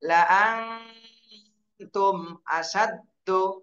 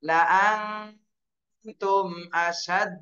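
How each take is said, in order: First: The last word ends with a short vowel. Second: The last word ends in a bounced stop. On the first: The reading continues without stopping. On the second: The reading pauses at this word.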